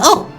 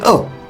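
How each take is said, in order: First: It is said at a higher pitch. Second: It is said at a lower pitch.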